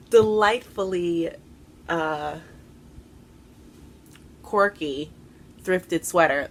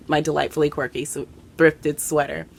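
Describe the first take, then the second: First: "delightfully" stretched slow and lifted, "quirky" falling; drawn-out emphasis. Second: Said in the usual way. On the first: Shown as a demonstration. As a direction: savour "delightfully" slowly, then "quirky" drops.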